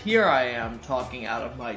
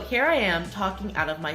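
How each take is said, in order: First: The voice is supported from below, sounding deeper. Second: The voice is pushed from the throat, sounding thinner. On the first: The speaker calls it right. "here I am talking out of my diaphragm" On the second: The speaker calls it wrong. "here I am talking out of my throat"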